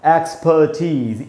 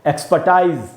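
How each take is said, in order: First: The last syllable sounds like 'teez'. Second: The last syllable sounds like 'tize'. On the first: The speaker calls it right. "इसको पढ़ना चाहिए एक्सपर्टीज" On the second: The speaker calls it wrong. "एक्सपर्टाइज हम लोग पढ़ लेते हैं कई बार गल, गलती से"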